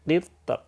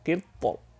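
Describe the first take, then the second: First: The r is pronounced light and thin. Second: The r is pronounced heavy and thick. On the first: "Qitr. Itu tipis" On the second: "Kalau yang tebal qitr. Nah, itu tebal"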